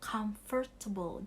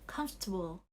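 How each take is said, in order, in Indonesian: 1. Kata itu diucapkan dengan empat suku kata. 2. Kata itu diucapkan dengan tiga suku kata. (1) "bukan comfortable, jadi nggak empat syllables" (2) "tiga suku kata, comfortable"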